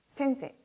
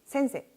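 First: The final vowel is short, with fewer beats. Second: The final vowel is short, with fewer beats.

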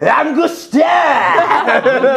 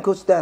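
First: It is said in a crude, rowdy tone. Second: It is said in a plain, ordinary tone.

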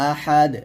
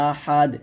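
Both takes have the same delivery.

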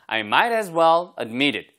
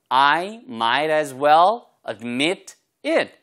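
First: The words flow smoothly together without breaks. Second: Each word is pronounced distinctly and separately. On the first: "발음이 이렇게 부드럽게 흘러가고" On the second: "이렇게 또박또박 하셔도 상관없습니다"

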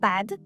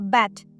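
First: The final d is voiced. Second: The final d is devoiced, like a t. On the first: The speaker calls it right. "не bad – поганий" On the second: The speaker calls it wrong. "Шоста помилка – це оглушення"

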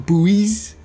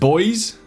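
First: The word is said as two syllables, 'boo-eez'. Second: The word is said as one syllable, like 'boys'. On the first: The speaker calls it right. "I think pronouncing it buoy is much better" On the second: The speaker calls it wrong. "It's pronounced boys"

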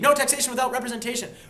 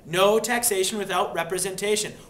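First: The phrase is spoken at double speed. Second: The phrase is spoken at a normal pace.

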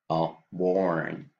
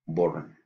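First: The vowel is the English open O sound. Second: The vowel is a Spanish-style pure O. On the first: The speaker calls it right. "we have to use this sound, this vowel sound" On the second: The speaker calls it wrong. "Spanish speakers will put the O right here"

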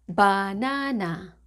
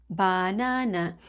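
Both takes have the same delivery.

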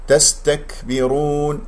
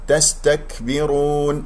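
Both takes have the same delivery.

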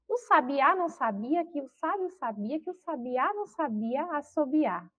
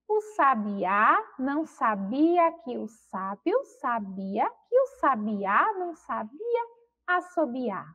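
First: The sentence is spoken at a very fast pace. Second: The sentence is spoken at a slow pace. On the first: "Será que a Pró consegue mais rápido ainda?" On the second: "eu vou ler devagar"

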